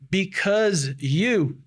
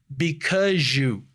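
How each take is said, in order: First: The end of because keeps a plain z sound. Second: The end of because turns into a zh sound. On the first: "ao invés de falar" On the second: "esse Z vai mudar para um J"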